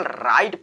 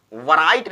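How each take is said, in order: First: राइट starting straight on r; silent W. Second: वराइट with a "va" before the r; W sounded. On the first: Teacher showing the right reading, silent w in राइट. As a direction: drop the w, say राइट. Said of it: "इसको केवल राइट पढ़ेंगे". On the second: Teacher showing the misreading, w sounded in वराइट. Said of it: "इसको हम वराइट नहीं". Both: Shown as a demonstration.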